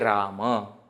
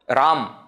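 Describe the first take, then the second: First: The final vowel is fully pronounced. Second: The final vowel is dropped. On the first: This is the proper Sanskrit form. The speaker calls it right. "we should say Rama" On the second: This is the colloquial Hindi form. The speaker calls it wrong. "they don't pronounce the last akara completely"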